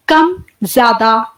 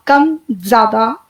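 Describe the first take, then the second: First: कम and ज्यादा drawn out slowly, breath swelling on ज्यादा; slow demonstration, कम light then ज्यादा fuller; slow breath demo. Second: कम and ज्यादा drawn out even more slowly, ending on a rise; very slow, let the voice lift at the end; slow breath demo. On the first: (धीरे-धीरे कम, ज्यादा) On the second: (और धीरे, अंत में उठती आवाज़) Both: Shown as a demonstration. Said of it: "इस तरीके से सांस निकल रही है".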